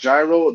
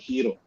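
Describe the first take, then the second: First: The word is said the usual English way. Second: The word is said the Greek way. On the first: The speaker calls it wrong. "It's not gyro" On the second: The speaker calls it right. "The Greeks pronounce it hero"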